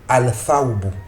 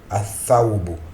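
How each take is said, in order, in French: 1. Le 'l' se prononce avant le 'th'. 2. Le 'l' tombe et le 'th' est doublé. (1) "Il peut avoir une légère difficulté" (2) "ça va se prononcer"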